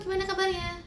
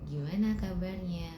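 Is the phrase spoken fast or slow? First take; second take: fast; slow. First: It is spoken at a fairly quick pace. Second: It is spoken at a noticeably slower pace. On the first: "itu agak cepat" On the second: "Itu agak lebih lambat"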